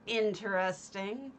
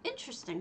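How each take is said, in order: First: It sounds doubtful and politely dismissive. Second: It sounds warm and sincerely appreciative. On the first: The thing is politely judged as odd. "not in a, oh, that's interesting" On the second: The home is genuinely admired. "I say that in a complimentary way"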